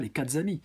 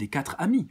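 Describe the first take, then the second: First: A z sound links quatre to amis. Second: Quatre runs into amis with no z sound. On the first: The speaker calls it wrong. "on dit pas les quatre amis" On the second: The speaker calls it right. "on dit les quatre amis"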